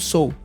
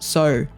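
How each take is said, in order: First: It is said with an American accent. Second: It is said with an Australian accent. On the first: "as pessoas em inglês falam, no inglês dos Estados Unidos" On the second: "Aqui na Austrália, eles não falam so, eles falam sir"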